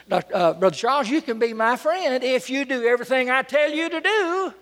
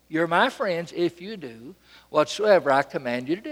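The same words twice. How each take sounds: First: High-pitched presumptuous condition; mock demand. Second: Matter-of-fact, unforced authority; rightful command. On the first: Preacher to a longtime friend, a mock demand. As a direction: lift the pitch and hold it up, overbearing. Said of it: "make a demand like that". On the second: Retold or imitated. Jesus to his friends, an unforced rightful command. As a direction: say it evenly, as if naturally entitled. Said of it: "It just sounds right".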